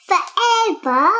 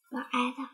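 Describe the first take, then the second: First: Forever called out loud and bright; loud finish. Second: Forever dropped to a soft, low hush; soft echo. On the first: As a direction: sing out the last word like a storybook ending. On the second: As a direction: let the word fade away like a whispered echo. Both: Acted. Child reads the book's ending.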